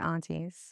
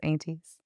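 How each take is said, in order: First: The word is said in a non-Texan way. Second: The word is said in a Texan way. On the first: This is how the speaker normally says it. "I'm not from Dallas, so I'll say aunties" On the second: This is how people in Texas say it. "everybody I know in Texas is aunties"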